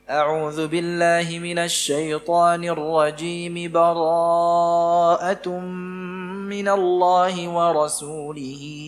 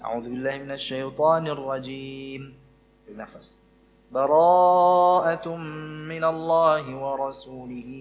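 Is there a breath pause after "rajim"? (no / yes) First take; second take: no; yes. First: Both phrases run together in one breath. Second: A breath pause separates the two phrases. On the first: "bisa disambung dengan satu kali nafas" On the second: "di qata' ya, dipisah. ... Bernafas"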